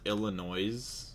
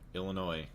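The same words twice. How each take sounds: First: The final S is pronounced. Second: The final S is silent. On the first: The speaker calls it wrong. "Whoever says Illinois has negative brain cells" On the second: The speaker calls it right. "there you go"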